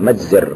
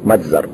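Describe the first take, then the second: First: The vowel after the z is i. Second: The vowel after the z is a. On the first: The speaker calls it right. "والصواب كسرها مجزر" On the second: The speaker calls it wrong. "وليس مجزر"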